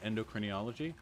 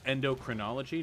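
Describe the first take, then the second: First: The word is said with an extra syllable. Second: The word is said without an extra syllable. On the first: The speaker calls it wrong. "I'm putting an extra syllable in" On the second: The speaker calls it right. "it's endocrinology"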